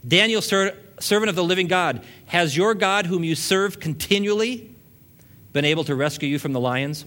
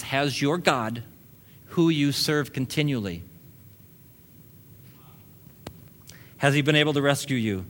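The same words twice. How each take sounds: First: High, loud, desperate call into the lions' den; a king crying out in anguish for his friend. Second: Slowed right down, each word weighed. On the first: A narrator's reading. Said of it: "He called Daniel in an anguished voice". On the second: Retold or imitated. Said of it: "He says".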